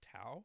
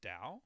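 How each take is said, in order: First: The word begins with a hard T sound. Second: The word begins with a D sound. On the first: The speaker calls it wrong. "some people will pronounce that Tao" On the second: The speaker calls it right. "that's actually pronounced Tao. ... The T is pronounced as a D"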